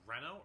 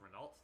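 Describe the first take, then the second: First: The name is said without an American accent. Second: The name is said with an American accent.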